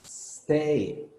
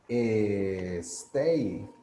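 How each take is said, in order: First: The word starts directly with the s sound. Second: An extra vowel sound comes before the s. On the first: The speaker calls it right. "I'm not pronouncing any E" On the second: The speaker calls it wrong. "le ponemos una E"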